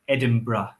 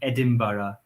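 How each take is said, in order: First: The word ends with a short 'bruh' sound. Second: The word ends with an 'ara' sound. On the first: This is how local people say it. "in Edinburgh we say it like this" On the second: This is the standard British pronunciation. "British English or received pronunciation, which is the standard English, would say Edinburgh with an ara on the end"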